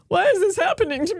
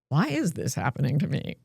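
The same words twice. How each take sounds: First: It sounds helpless and victimized. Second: It sounds calm and self-possessed.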